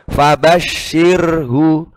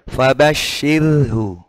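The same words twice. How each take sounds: First: The r is said plain, with normal vibration. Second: The r is said thin, with little vibration. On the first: "Kalau normal gini" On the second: "Kalau tipiskan"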